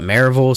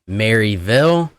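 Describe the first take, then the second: First: The name is said the local way. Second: The name is said the formal, outsider way. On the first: The speaker is from the area. "all the locals call it Maryville" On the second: The speaker is from out of town. "the proper uh, pronunciation of Maryville might be Maryville"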